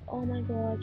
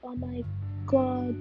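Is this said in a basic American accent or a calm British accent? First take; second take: calm British; basic American. First: It is said in a calm British accent. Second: It is said in a stereotyped American valley-girl accent. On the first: "a very calm British accent" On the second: "like a very basic bitch accent"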